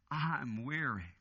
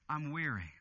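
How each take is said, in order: First: Slow, low, drawn-out sigh of a line; weary and worn out. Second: Weary murmur. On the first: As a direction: let it sink, exhausted. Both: Acted. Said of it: "He's saying".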